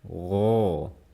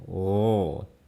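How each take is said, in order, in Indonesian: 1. Bunyinya didorong lurus ke luar. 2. Bunyinya didorong lurus ke luar.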